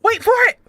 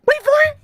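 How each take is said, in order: First: Higher, teasing build-up; first call, already lifted; eager suspense. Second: Second call, peaking high; rising suspense. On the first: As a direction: hold them on the edge of the reveal. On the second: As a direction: push the suspense further. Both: Real, not acted. Building suspense before the reveal.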